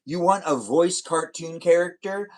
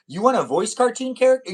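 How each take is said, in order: First: Said in the usual way. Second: Higher and louder, eager; bright, surprised reread; excited repeat. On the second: Shown as a demonstration. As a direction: pitch it up with excitement.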